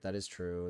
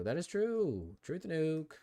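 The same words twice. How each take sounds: First: Said in the usual way. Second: High, swooping "true"; mock-emphatic high-pitched confirmation; playful agreement. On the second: Real, not acted. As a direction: repeat it high and drawn out.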